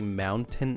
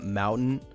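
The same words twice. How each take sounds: First: The t in the middle is clearly pronounced. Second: The t in the middle is dropped. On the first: "I say mountain" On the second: "and not mountain"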